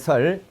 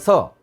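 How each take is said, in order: First: The syllable ends with an L sound. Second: The syllable ends on the vowel, no L. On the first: "여기 설은 받침이 니을이잖아요" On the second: "받침 니을이니까 없어지고 서만 남고"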